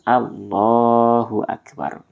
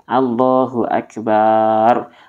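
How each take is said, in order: First: The vowel after the b is kept short. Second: The vowel after the b is drawn out. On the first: It means the greatest. The speaker calls it right. "Harus Allahu Akbar" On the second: It turns the word into one meaning drum. The speaker calls it wrong. "baknya dipanjangkan menjadi akbar, artinya berubah menjadi tobel"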